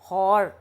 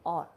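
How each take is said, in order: First: The word begins with an h sound. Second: The word begins with a vowel sound. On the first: The speaker calls it wrong. "हम Ali is late and हॉर नहीं कहेंगे" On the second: The speaker calls it right. "हम कहेंगे और"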